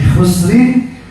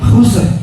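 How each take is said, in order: First: The word ends with a short -in ending. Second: The word stops sharply on the final r. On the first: The recitation continues into the next words. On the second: The recitation pauses at this point.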